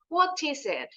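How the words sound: The T between vowels is a crisp T. "Kalau British English mau T di depan, T di tengah, itu selalu true T sound. Huruf T benar"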